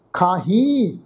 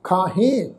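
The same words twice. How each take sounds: First: ਖਾਹੀ with a long, nasalised final ee; nasal ee ending. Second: ਖਾਹੇ with an open, nasalised final e; nasal e ending. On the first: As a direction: close ਖਾਹੀ on a humming ee sound. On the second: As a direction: close ਖਾਹੇ on a humming "hen". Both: Shown as a demonstration. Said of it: "ਇੱਥੇ ਵੀ ਬਿੰਦੀ pronounce ਹੋਏਗੀ".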